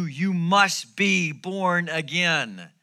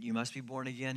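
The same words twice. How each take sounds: First: "must be born again" loud, higher and very slow; emphatic. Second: Said in the usual way. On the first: Acted. Preacher reads Jesus's command to Nicodemus, emphatic. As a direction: hammer out each word of "must be born again". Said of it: "Jesus is pretty emphatic on this statement". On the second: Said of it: "on this statement".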